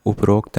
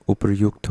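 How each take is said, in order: First: उपरोक्त said as "uprokt"; the mistaken उपरोक्त, o after the r; wrong o vowel. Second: उपर्युक्त said as "upryukt"; y and u after the r in उपर्युक्त; correct yu sound. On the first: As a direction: say उपरोक्त with "rokt". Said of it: "नहीं होता". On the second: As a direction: say उपर्युक्त with "ryukt". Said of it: "होता है". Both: Shown as a demonstration.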